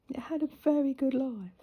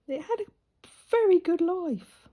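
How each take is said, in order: First: Said in the usual way. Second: VERY lifted high and louder, drawn out slowly; emphatic. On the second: Acted. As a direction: lean hard into the word very. Repeats the line with emphasis.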